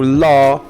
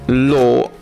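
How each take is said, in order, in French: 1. Il est prononcé avec un accent américain. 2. Il est prononcé avec un accent britannique. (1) "en anglais américain" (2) "en anglais britannique"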